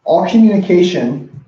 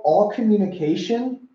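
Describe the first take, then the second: First: "communication" punched loud and falling, "all" light; stress on COMMUNICATION. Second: ALL lifted high and held, communication tossed off; stress on ALL. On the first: Coach repeating the statistic to his audience, stress on COMMUNICATION. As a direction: land firmly on "communication". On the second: Coach opening his big statistic, stress on ALL. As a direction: lean hard on "all" then let "communication" drop. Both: Shown as a demonstration.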